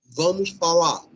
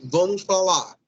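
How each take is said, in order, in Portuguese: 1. O R final de 'falar' é omitido. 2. O R final de 'falar' é omitido.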